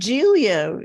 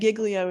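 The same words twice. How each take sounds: First: The name is said with a New York pronunciation. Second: The name is said with a Southern US pronunciation. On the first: "Giglio is the New York way to say it" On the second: "Giglio is how the Southerners pronounce it"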